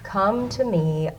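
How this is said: The voice is flat and monotone. The speaker calls it wrong. "would be saying this so monotone"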